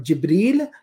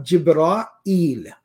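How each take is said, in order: First: Jibril short, jib-REEL, no middle aa; contrasting pronunciation. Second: Jibra'il drawn out, jib-raa-EEL; slow Jibra'il, long aa then a separate eel; contrasting pronunciation. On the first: Teacher contrasting two forms, Jibril as plain two-syllable jib-REEL. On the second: Teacher contrasting two forms, Jibra'il slowly split as jib-raa-EEL. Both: Shown as a demonstration. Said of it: "a little bit of difference".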